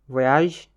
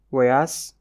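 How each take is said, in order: First: Voyage said the French way, vo-yazh; French pronunciation. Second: Voyage said the Pulaar way, wo-yas; Pulaar pronunciation. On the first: Teacher models the French Voyage first. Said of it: "se prononce différemment". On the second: Teacher gives the Pulaar form of Voyage. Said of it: "woni ɗangal". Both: Shown as a demonstration.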